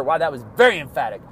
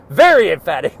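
First: Said in the usual way. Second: "Very emphatic" repeated much louder and punchy; loud playful self-parody. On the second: Shown as a demonstration. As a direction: belt out "Very emphatic" with mock gusto.

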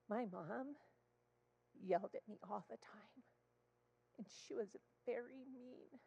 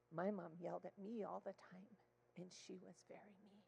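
First: Put-on small, soft little-girl confession; imitated child confiding. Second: Put-on quiet adult admission to a child; soft confiding. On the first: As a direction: confide quietly like a hurt child. Child confides about mother. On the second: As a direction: share it gently, dropping very soft at the end. Therapist shares the same back.

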